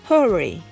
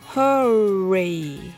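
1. その単語は速く、きびきびと言われています。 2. その単語はゆっくり、長く伸ばして言われています。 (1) "次に早く" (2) "はじめはゆっくり"

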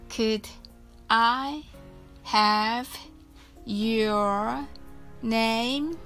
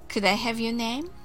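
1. このフレーズはゆっくり話されています。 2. このフレーズは速く話されています。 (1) "はじめはゆっくりです。" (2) "Please say it much faster"

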